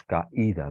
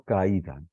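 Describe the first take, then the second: First: "caída" split, ca then a stressed í. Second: Said in the usual way. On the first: Shown as a demonstration. Teacher showing where intensity falls, stressed I. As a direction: separate and lean on the í in "caída". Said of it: "la intensidad recae sobre la I". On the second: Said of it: "Por ejemplo".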